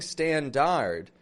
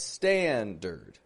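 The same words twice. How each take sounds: First: The second vowel is a full vowel. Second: The second vowel is a reduced schwa. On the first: The speaker calls it wrong. "notice I'm not saying standard" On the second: The speaker calls it right. "but standard"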